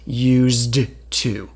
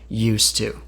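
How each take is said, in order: First: The d sound in used is clearly pronounced. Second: The d sound in used is dropped. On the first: The speaker calls it wrong. "No one actually says used to because that's too difficult to say" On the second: The speaker calls it right. "We just say used to"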